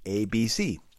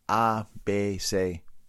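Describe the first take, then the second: First: The letters are named with English pronunciation. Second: The letters are named with Spanish pronunciation. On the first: "pero en inglés" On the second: "Yo recuerdo en escuela"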